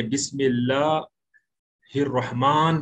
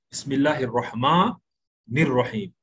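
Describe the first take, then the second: First: Slow बिस्मिल्लाहिर्रहमान halted on a sounded final n; wrong stopped ending. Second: बिस्मिल्लाहिर्रहमानिर्रहीम with a long maa, the n carried into nir-raheem; correct joined recitation. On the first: Teacher warns students against this reading, wrongly stopped ending. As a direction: close बिस्मिल्लाहिर्रहमान on the n, cut off from what follows. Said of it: "आप ऐसा नहीं बोलेंगे".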